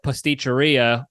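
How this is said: It is said with an American accent. "when I do American accent"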